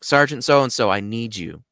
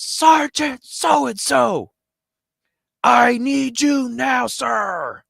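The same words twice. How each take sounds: First: Mildly urgent call for attention; speaking up. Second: Loud, high drawn-out parade-ground holler; military shout. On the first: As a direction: raise the voice slightly on the sergeant's name. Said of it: "I can't just stay quiet". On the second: Airman at full attention summons his superior, formal military shout. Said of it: "stands up at full attention". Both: Retold or imitated.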